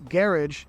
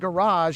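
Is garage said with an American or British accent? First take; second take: British; American. First: It is said with a British accent. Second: It is said with an American accent.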